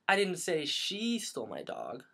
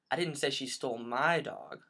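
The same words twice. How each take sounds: First: The stress falls on the word she. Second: The stress falls on the word my.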